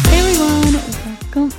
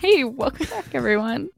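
First: It is said in her own normal voice. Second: It is said imitating her co-host's voice.

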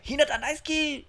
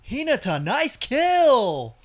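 First: It is delivered naturally in the original style. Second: It is over-enunciated in an American dub accent. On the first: The speaker calls it right. "But they, when they do it" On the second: The speaker calls it wrong. "when they over enunciate, I think, for the dub"

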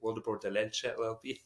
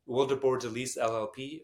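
First: The surname is said with its original pronunciation. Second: The surname is said in an anglicized way.

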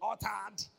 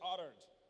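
First: It is said with a non-American pronunciation. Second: It is said with an American pronunciation. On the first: "but it's not uttered, it is uttered" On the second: "Americans say uttered"

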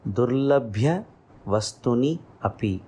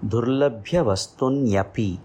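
First: The words vastuni and api are kept separate. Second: The words vastuni and api merge into one.

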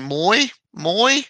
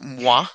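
First: The name is said with an Australian accent. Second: The name is said without an Australian accent. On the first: "if you're Australian, It'll be Moi" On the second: "but it's pronounced Moi"

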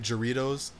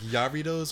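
First: The name begins with an English J sound. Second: The name begins with a Y sound. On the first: The speaker calls it wrong. "I know that's not how you say it, but the less initiated" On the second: The speaker calls it right. "I think it's actually pronounced like Yarritos"

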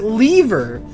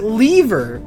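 First: The word is said with a British pronunciation. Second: The same.

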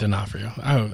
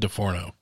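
First: The name is pronounced as D'Onofrio. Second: The name is pronounced as DeForno. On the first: The speaker calls it right. "it's D'Onofrio" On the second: The speaker calls it wrong. "Did I say it wrong? I said DeForno"

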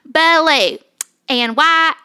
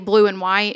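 First: It is said in a broad Southern accent. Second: It is said in a standard, non-Southern accent. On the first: "I started like getting the accent of them"

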